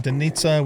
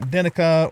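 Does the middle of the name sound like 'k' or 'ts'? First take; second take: ts; k. First: The middle consonant is a ts sound. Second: The middle consonant is a plain k sound. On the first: The speaker calls it right. "is actually supposed to be Denitsa" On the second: The speaker calls it wrong. "a lot of the cities like Dinika is actually supposed to be Denitsa"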